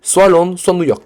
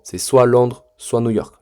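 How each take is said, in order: First: "soit" hit hard on both halves, higher and louder; higher, louder insistence that it's one or the other; emphatic insistence. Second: Said in the usual way. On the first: Shown as a demonstration. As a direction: drive home "soit Londres, soit New York" like a strict coach. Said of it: "la discipline, elle va commencer juste par ici". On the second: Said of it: "vous allez devoir faire un choix".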